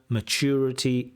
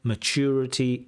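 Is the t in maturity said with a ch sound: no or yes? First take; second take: yes; yes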